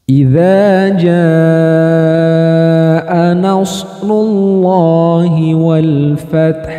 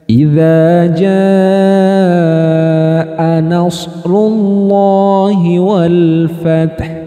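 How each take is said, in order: No difference in how they are said.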